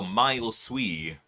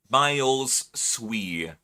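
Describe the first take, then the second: First: "Miles Sui" run together as one smooth phrase; slow "Miles Sui" joined with no break; no pause, flowing. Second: "Miles Sui" with a clear pause after "Miles"; slow "Miles Sui", split by a pause. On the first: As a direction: let "Miles" slide straight into "Sui". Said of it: "just flows better". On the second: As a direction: say "Miles", stop, then "Sui". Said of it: "you have to pause after the S in Miles". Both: Shown as a demonstration.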